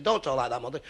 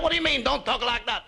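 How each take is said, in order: First: Said in the usual way. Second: Put-on high, indignant Italian-accented comeback; mock Italian accent. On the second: Mother answering her embarrassed son, indignant Italian accent. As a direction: throw it back like an outraged Italian mama. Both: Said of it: "You're not Italian".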